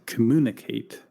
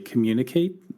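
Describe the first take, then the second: First: No y sound follows the m. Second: A y sound follows the m. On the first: The speaker calls it wrong. "without the little Y sound there" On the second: The speaker calls it right. "we say communicate"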